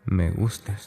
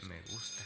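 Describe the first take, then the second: First: Said in the usual way. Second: Much softer repeat, barely there; trailing, near-silent echo; faint echo. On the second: Acted. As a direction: let the repeat die away to almost nothing. Repeats it, then fades.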